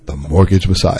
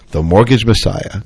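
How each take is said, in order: First: It is said in a deeper voice. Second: It is said in his normal voice.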